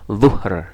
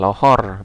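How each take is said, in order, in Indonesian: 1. Kata ini diawali dengan bunyi dh tebal. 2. Kata ini diawali dengan bunyi l. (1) "Jadi pakai huruf dho" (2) "malah jadi L"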